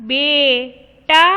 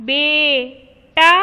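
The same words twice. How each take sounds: No difference in how they are said.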